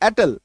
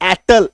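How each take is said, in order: First: The word is said with slightly lowered volume. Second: The word is said loudly and forcefully. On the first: The speaker calls it right. "Volume एक degree कम करना है" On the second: The speaker calls it wrong. "जो जो से नहीं बोलना है, एटल ऐसे नहीं बोलना है"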